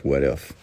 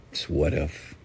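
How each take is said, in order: First: Said in the usual way. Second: "what if" said softer and deliberately; soft emphasis. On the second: Shown as a demonstration. Preacher repeating the title to his listeners, softly stressed. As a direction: lean on "what if" quietly. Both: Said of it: "the title of this morning's rant was".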